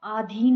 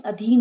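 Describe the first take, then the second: First: आधीन opening on long aa; long first vowel. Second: Said in the usual way. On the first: Shown as a demonstration. Teacher showing students an error, long first vowel. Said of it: "नहीं". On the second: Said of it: "होता है".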